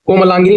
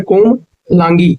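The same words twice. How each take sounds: First: कोमलांगिनी run together, ending in "gini"; wrong form shown. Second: कोमलांगी slowly, ending in a long "gi"; right form shown. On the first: Teacher rejecting a wrong word, कोमलांगिनी ending in नी. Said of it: "कोमलांगिनी नहीं होता". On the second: Teacher giving the correct word, कोमलांगी slowly with गी ending. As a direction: stretch कोमलांगी, stopping at गी. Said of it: "ये होता है". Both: Shown as a demonstration.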